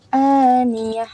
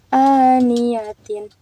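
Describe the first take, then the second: First: The word ends short with a final h. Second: The word ends with a full -tin syllable. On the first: The reader stops at this word. "Jadi karena di waqaf aniyah" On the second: The reading continues without stopping. "asalnya kan dibaca tin gitu ya"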